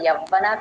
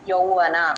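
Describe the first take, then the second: First: The first syllable is a plain 'ya' sound. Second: The first syllable is a gliding 'yau' sound. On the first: The speaker calls it wrong. "యవ్వన కాదు" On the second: The speaker calls it right. "యౌవన అని చెప్పాలండి"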